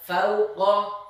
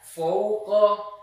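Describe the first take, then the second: First: The first vowel is a full open 'a'. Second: The first vowel is not fully opened. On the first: The speaker calls it right. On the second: The speaker calls it wrong. "tidak sempurna membaca huruf yang berharokat fathah"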